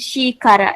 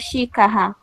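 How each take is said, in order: First: The r between vowels is a soft tap. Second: The r between vowels is a strong trill. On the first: This is how the word should be read. The speaker calls it right. "ele não leu xícara" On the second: The reader applies only one rule for r. The speaker calls it wrong. "ele leu só xícara"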